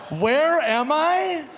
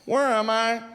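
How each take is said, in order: First: Very high, loud and slow; mocking disbelief. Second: Put-on high, lost drunk question; drunk confusion. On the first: Comic repeats the drunk's question, very high, slow and incredulous. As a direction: stretch it out in disbelief. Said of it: "repeating the drunk's line". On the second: Drunk man asks the bartender where he is, high and lost. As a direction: ask like you have no idea. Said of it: "the guy goes".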